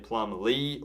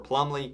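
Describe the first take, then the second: First: There is a short break inside the name. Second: The name is said smoothly without a break. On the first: "pause there and say Plumlee" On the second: "kind of run it all together"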